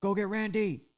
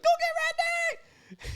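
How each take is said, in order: First: Higher, louder mocking parrot of the threat; mocking echo. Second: Very high, loud and slow mocking scream. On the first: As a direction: throw his words back at him, teasing. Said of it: "So he's like". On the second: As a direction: shriek the threat back at him, hammed-up. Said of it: "he's just, like, really screaming".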